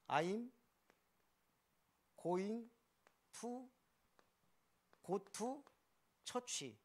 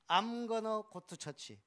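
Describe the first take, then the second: First: Each word is said separately and fully. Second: The words run together into reduced forms.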